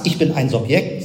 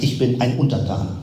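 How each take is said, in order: First: "Ich bin ein Subjekt" with the voice rising at the end, like a proud claim; rising question tune. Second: "Ich bin ein Untertan" with the voice falling at the end, sober and conclusive; falling revealing tune. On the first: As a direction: stress on "bin", lift on "Subjekt". (steigende Betonung auf „bin“) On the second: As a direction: stress on "bin", settle down on "Untertan". (fallende, nüchterne Betonung auf „bin“) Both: Shown as a demonstration. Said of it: "sagst du eigentlich".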